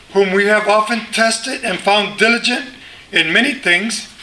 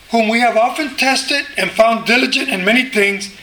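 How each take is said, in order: Both takes have the same delivery.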